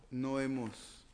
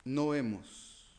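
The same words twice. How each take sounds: The two takes are said the same way.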